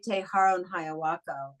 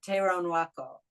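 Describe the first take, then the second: First: Every consonant in the name is pronounced fully. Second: Some consonants are dropped, running the sounds together. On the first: "I used to say" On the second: "they don't pronounce all of the consonants as we would"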